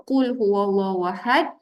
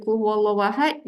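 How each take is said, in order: First: "qul" with a heavy q from deep at the tongue root; deep Arabic q opening "qul"; correct deep qaf. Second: "qul" mispronounced as "kul" with a light k; light, forward k opening "qul huwallahu ahad"; mistaken light kaf. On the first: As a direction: recite "qul huwallahu ahad" with a thick, back qaf. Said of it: "kalau salah sebut boleh berubah makna". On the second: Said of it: "jadi makanlah". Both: Shown as a demonstration.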